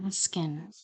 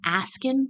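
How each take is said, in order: First: "asking" whispered breathily, vowel softened, a small rise at the end; whispered mimicry. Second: Put-on a mild copy of her faint accent, "Asking?" lifted higher at the end; mimicked accent. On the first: Commentator mocking the witness's word under her breath, whispered. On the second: Commentator copying the witness's word, a light mimicked accent. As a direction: echo the witness's vowel in "Asking?" with a rising tune. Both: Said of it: "Do you hear how she's saying that".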